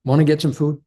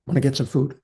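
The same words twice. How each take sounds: First: Said in the usual way. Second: Quiet, gentle invitation; soft, casual check-in with a tired wife; soft offer. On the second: Retold or imitated. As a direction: coax her softly toward food. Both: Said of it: "like I said".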